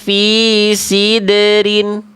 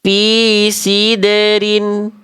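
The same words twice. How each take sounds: No difference in how they are said.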